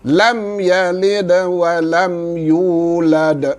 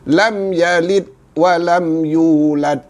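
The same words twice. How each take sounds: First: The d sounds end with an echoing bounce. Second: The d sounds stop flat without any bounce. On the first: The speaker calls it right. "maka masih kena zahirkan qalqalah" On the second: The speaker calls it wrong. "ada yang baca tanpa qalqalah seperti ini"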